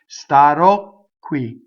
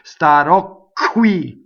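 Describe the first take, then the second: First: The k sound before qui is held long. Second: The k sound before qui is short. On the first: The speaker calls it right. "Double Q" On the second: The speaker calls it wrong. "That's not a double Q. That's nothing"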